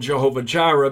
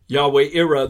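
First: The name begins with a J sound. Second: The name begins with a Y sound. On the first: The speaker calls it wrong. "what has been called" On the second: The speaker calls it right. "the correct pronunciation in the Hebrew"

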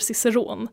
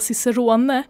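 First: The final e is silent. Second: The final e is pronounced as a syllable. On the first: "Så et är tyst" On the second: "istället för att säga Cicerone"

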